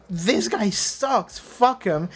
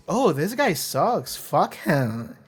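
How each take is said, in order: First: Higher, drawn-out disgust at THIS GUY SUCKS; scornful dismissal. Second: Slow, swooping OH, THIS GUY SUCKS; smitten mock disapproval. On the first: Viewer who hates the character reacting to the scene, scornful dismissal. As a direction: write him off with emphatic contempt. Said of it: "there's two ways you can take that scene". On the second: Fan who loves the awful character reacting, smitten mock disapproval. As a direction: say it as if you secretly adore him, falling away at the end. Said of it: "And the other way is". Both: Shown as a demonstration.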